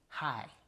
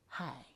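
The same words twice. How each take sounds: First: The word is said in a firm, unbreathy voice. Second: The word is said in a soft, airy voice. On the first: The speaker calls it wrong. "Instead of saying" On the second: The speaker calls it right. "I focused on getting an airier voice"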